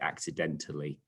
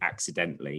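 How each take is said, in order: First: It ends 'den-tal-ly' with an 'al' syllable. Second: It ends 'dent-ly' with no 'al' syllable. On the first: The speaker calls it right. "you say accidentally" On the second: The speaker calls it wrong. "You don't say accidentally"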